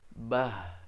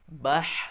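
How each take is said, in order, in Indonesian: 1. Bunyi h adalah hembusan napas biasa dari tenggorokan bawah. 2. Bunyi h adalah hembusan napas yang rapat dari tengah tenggorokan. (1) "jangan mengucapkannya dengan dari tenggorokan yang bawah" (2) "beda antara bah dan bah"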